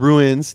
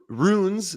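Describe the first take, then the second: First: The word is said as 'ruins'. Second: The word is said as 'runes'. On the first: The speaker calls it wrong. "me mispronouncing that word" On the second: The speaker calls it right. "Ru- runes, not ruins"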